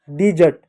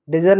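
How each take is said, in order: First: डिजर्ट opening with "di"; correct pronunciation. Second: डेजर्ट opening with a short "deh"; mispronunciation. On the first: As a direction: say डिजर्ट as "di-ZERT". (डिजर्ट, 'डि' से शुरू, सही उच्चारण) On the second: (डेजर्ट, 'डे' से शुरू, गलत उच्चारण) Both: Shown as a demonstration. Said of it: "डेजर्ट नहीं".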